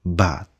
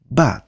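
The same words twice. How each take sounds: First: Bat dropping low and soft; falling tune. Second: Bat with a rising pitch; rising tune. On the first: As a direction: let bat fall away. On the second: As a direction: lift your voice on bat. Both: Shown as a demonstration. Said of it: "lên giọng hay là xuống giọng".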